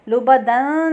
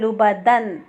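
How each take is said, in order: First: The n is lengthened and hidden in the nose. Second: The n is short and pronounced clearly. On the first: The speaker calls it wrong. "लुबा दन नहीं कहेंगे" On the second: The speaker calls it right. "यानी इजहार करेंगे"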